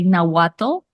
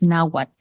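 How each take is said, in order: First: The final 'tl' is clearly pronounced. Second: The final 'tl' is nearly silent. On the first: The speaker calls it wrong. "that's not how it's pronounced" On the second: The speaker calls it right. "basically kind of a silent pronunciation of the T and the L"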